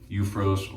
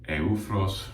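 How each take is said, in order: First: The name is said with English-style sounds. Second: The name is said with native-sounding sounds.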